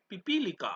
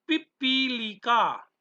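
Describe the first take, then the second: First: Said in the usual way. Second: पिपीलिका said slowly, pi-pi-li-ka, each syllable even; slow model pronunciation. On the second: Shown as a demonstration. Teacher modelling पिपीलिका for the class, slow. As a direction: draw out पिपीलिका for pupils. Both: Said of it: "उच्चारण करते रहना".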